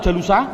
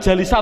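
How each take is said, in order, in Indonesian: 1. Vokal setelah l adalah u. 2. Vokal setelah l adalah i. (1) "Jawabnya adalah tidak boleh" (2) "Jawabnya adalah tidak boleh"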